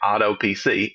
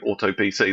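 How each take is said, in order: First: It is said in an American accent. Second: It is said in a British accent. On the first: "in my really bad American accent" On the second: "Americans don't say auto P C"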